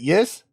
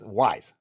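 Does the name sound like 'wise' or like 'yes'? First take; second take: yes; wise. First: The name sounds like the word 'yes'. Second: The name rhymes with 'eyes', like 'wise'. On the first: This is a possible alternative pronunciation being asked about. "Is it yes?" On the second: This is the way the speaker has always said it. "I've always Wise"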